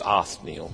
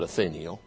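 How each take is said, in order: First: No vowel is heard between 'th' and 'n'. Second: An extra vowel is heard between 'th' and 'n'. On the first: "there's no I in there between the H and the N, so it's Othniel" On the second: "but some call it Othniel"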